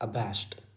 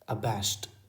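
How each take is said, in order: Both takes have the same delivery.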